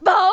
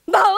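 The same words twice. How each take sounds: First: The barking sounds sad. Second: The barking sounds happy.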